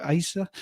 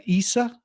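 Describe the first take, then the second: First: First vowel of Asa changed from EE; Asa with open first vowel. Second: Long EE opening Isa; first vowel of Isa as EE. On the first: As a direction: open diphthong starting Asa, not EE. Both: Shown as a demonstration. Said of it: "I don't know how to pronounce that".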